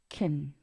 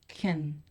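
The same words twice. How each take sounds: First: The word is unstressed with a reduced vowel. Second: The same.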